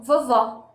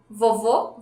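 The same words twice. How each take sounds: First: Vovó ending in an open "aw", falling; vovó के अंत में खुला "ऑ"; open final o. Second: Vovô ending in a closed "oh", rising; Vovô के अंत में बंद "ओ"; closed final o. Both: Shown as a demonstration. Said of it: "Can you hear the difference?".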